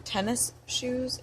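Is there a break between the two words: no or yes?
yes. A short break separates the two words.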